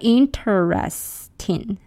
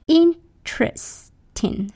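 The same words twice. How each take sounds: First: The word is said with four syllables. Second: The word is said with three syllables. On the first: The speaker calls it wrong. "not interesting, four syllables" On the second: The speaker calls it right. "three syllables"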